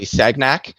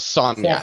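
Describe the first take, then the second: First: The g is said as a hard g. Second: The gn is said as a ny sound. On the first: This is how people who don't know the physics say it. The speaker calls it wrong. "they all say Sagnac" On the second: This is how the French man's name is actually said. The speaker calls it right. "His name was Sagnac"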